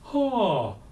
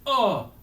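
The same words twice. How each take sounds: First: The vowel starts gently without a catch. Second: The vowel starts with a hard glottal catch. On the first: "very soft onset" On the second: "unless we actually want a glottal"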